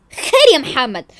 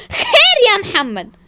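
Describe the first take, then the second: First: Slow challenge. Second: Loud, high, slow cry; outraged demand. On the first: Repeats challenge to Mohamed. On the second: Wife confronts Mohamed, crying out in outrage. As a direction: stretch it out indignantly. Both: Acted.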